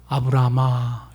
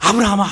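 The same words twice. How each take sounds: First: It is called in a calm, ordinary way. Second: It is called in an urgent, hurried way.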